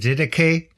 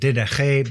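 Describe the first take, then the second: First: The word is said in its common everyday way. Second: The word is said in a fussier, more Greek way. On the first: This is how most people say it. "most people just call it the Didache" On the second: This is an overly precise way to say it. "you could be really pedantic and call it the Didache"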